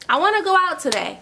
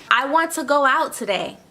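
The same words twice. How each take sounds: First: Higher and faster, mock eager. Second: Said in the usual way. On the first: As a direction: say it like you can't wait to go.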